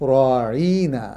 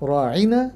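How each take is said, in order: First: The vowel before -na is drawn out long. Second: The vowel before -na is short. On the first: Our shepherd. The speaker calls it wrong. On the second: Please attend to us. The speaker calls it right.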